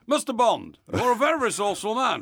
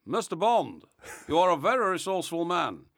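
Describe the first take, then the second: First: Higher, louder hammed-up villain; big theatrical master villain retake; Goldfinger. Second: Lightly voiced villain; a restrained first try at the arch-villain; understated master villain impression; Goldfinger. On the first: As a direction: address the spy with grand menace. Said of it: "this is Goldfinger". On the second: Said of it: "that's not good enough".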